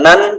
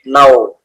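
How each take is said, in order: First: The syllable ends with a clear n sound. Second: The n merges into a following w sound. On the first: The speaker calls it wrong. "bukan nan" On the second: The speaker calls it right. "tapi nau karena dimasukkan"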